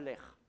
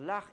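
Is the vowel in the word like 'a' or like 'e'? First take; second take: e; a. First: The vowel is an 'e' sound. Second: The vowel is an open 'a' sound. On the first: The speaker calls it wrong. "et pas l'air" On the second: The speaker calls it right. "on va dire l'art"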